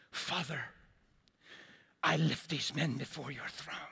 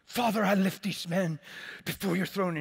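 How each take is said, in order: First: Mock prayer-meeting voice, lightly put on; a hint of a formal pleading prayer tone; intercession voice. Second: Louder, higher, booming prayer voice; intercession voice, hammed up. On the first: Pastor mimics his own old prayer to God, intercession voice. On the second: Pastor replays his loud prayer to God, intercession voice. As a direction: pray it grandly, like a showy intercessor. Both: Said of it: "put on my intercession voice".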